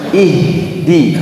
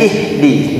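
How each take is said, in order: First: The h is heavy and deep. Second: The h is light and thin. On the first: The speaker calls it right. "Harusnya i, ihdi" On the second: The speaker calls it wrong. "h-nya terbawa tipis. Jadi ihdi, jangan"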